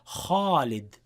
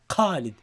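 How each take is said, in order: First: The first sound is heavy and full. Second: The first sound is hard, like a q. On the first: The speaker calls it right. "in classical Arabic, in Quran, it would be kha" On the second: The speaker calls it wrong. "very tough until it becomes like qa"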